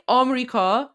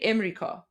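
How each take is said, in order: First: "Amrika" with an open AH at the start; Amrika variant. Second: "Imrika" with a short front vowel first; Imrika variant. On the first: Streamer comparing two Persian pronunciations, open-vowelled "Amrika". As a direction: start "Amrika" on AH, three syllables. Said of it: "Some, some say Amrika". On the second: Streamer comparing two Persian pronunciations, front-vowelled "Imrika". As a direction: start "Imrika" on a short IM, three syllables. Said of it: "some say Imrika". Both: Shown as a demonstration.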